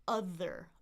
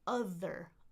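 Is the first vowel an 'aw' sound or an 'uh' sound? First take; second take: uh; uh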